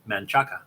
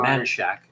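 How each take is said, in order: First: The name ends with a 'chaca' sound. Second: The name ends with a 'shack' sound. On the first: It is read the way it is spelled. The speaker calls it wrong. "if I was looking for Manchaca" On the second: It is said the way locals say it. The speaker calls it right. "that's how you say it"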